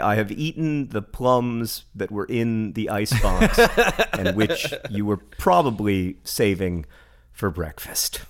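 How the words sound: It is read with heightened, dramatic poetic delivery. "I can read that one much more poem-y"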